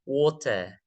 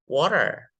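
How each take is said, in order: First: "Water" with no r at the end; British water. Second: "Water" with a clear r at the end; American water. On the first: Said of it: "British version". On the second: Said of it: "second take". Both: Shown as a demonstration.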